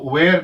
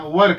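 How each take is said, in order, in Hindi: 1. स्वर 'air' वाले स्वर जैसा है। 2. स्वर 'her' वाले स्वर जैसा है। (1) "बट हमें इसको वेयर नहीं कहना" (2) "वर कहना"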